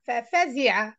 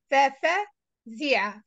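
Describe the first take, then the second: First: Said in the usual way. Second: "ففزع" slowly, pausing before the last part; teacher's slow, split "ففزع"; syllable by syllable. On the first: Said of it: "After this, you make one word". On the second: Shown as a demonstration. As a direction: break "ففزع" into fa-fa, zi-a. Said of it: "read it alphabet by alphabet".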